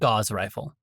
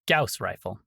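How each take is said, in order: First: Gauss does not rhyme with house. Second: Gauss rhymes with house. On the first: The speaker calls it wrong. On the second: The speaker calls it right. "the proper pronunciation is"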